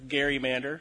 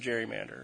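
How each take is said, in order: First: The word begins with a hard G sound. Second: The word begins with a soft J sound.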